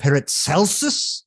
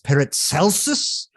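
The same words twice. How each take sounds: First: The name is said with a German pronunciation. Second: The same.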